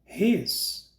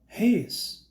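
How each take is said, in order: First: The two words are merged into one syllable. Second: The same.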